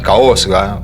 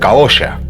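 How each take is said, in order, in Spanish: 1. Las consonantes del medio se pronuncian como s más g. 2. Las consonantes del medio se pronuncian como un solo sonido sh. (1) "que estoy diciéndolo como se lee" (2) "La pronunciación de eso debería ser"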